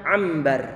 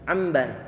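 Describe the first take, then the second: The two takes are said the same way.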